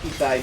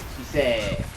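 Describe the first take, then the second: First: The word ends with an 'ai' sound. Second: The word ends with a long 'eh' sound. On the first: "chisai means small" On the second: "so it'd be like"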